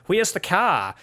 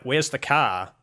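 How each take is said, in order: First: Higher-pitched Australian accent demo; Australian accent with "Where's" tightened towards "wheez". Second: Kiwi accent demo, close to usual voice; New Zealand accent, lightly pointed for comparison. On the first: New Zealander mimics Australians for a comparison, Australian accent. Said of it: "The Australians are like". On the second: New Zealander shows how locals say it, New Zealand accent. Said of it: "And we're like". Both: Shown as a demonstration.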